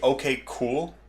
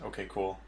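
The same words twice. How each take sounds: First: The phrase is said at an ordinary speed. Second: The phrase is said very quickly.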